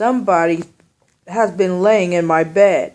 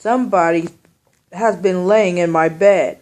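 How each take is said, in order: First: It is said in a big, deep voice. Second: It is said in a big, deep voice.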